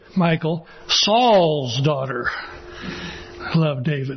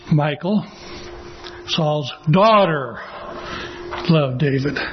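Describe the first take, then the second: First: The stress is on Saul's. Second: The stress is on daughter.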